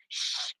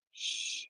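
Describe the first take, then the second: First: Soft hushed shush. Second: Whispered shush after a long pause; dramatic shush. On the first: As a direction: hush her like in court. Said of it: "And I said". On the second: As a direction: shush her flatly, dead in the eyes. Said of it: "a nice dramatic pause". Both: Retold or imitated.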